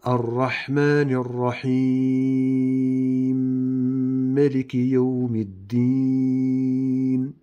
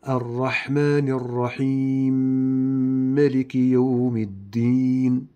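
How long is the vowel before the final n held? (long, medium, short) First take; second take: medium; short. First: The final long vowel is held medium length. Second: The final long vowel is held short. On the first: "نعطف بالتوسط مع الإدغام" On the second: "نبدأ بالإدغام مع القصر"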